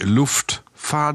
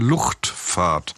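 First: The word has an f sound before the t. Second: The word has a ch sound before the t. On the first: The speaker calls it wrong. "Nicht Luftfahrt" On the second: The speaker calls it right. "sondern Luftfahrt"

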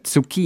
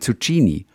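First: The word is pronounced in an Italian way. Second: The word is pronounced in a German way. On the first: The speaker calls it right. "dabei ist es eine Zucchini" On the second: The speaker calls it wrong. "dass wir Deutschen ja sonst ganz viele italienische Ausdrücke falsch aussprechen. Wie viele sagen ja Zucchini"

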